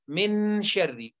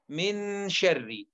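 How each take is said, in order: Both takes have the same delivery.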